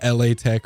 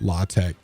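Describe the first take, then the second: First: The first part is spelled as letters 'L A'. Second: The first part is one syllable, 'la'. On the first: The speaker calls it wrong. "Not L A Tech" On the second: The speaker calls it right. "that's pronounced correctly"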